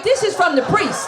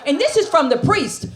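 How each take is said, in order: First: "This" hit high with a laugh; laughing punchline. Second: Said in the usual way. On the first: Acted. Comedian tells the audience the drugs came from the priest, laughing and high. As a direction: laugh through the reveal.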